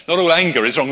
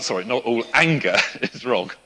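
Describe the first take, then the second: First: Louder, stress on "all" with a lift; firm correction. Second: A real laugh through the self-correction. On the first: Preacher correcting his slip to the congregation, firmly stressing "all". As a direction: set the record straight, leaning on "all". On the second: Preacher catching his own slip mid-sermon, laughing. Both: Real, not acted. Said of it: "Nearly got that wrong".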